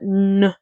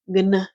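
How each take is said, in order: First: Only an n sound is heard. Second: A g sound comes before the n. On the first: The speaker calls it right. "but n is how you say it" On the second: The speaker calls it wrong. "I know you're thinking gn, gn would be how you pronounce it"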